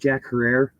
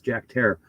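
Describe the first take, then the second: First: The surname starts with 'her' and has three syllables. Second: The surname starts with 'hair' and rhymes with terror. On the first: The speaker calls it wrong. "if you pronounced it Jack Herrera, it's okay. I did too, and we were wrong" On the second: The speaker calls it right. "it's pronounced hair like terror"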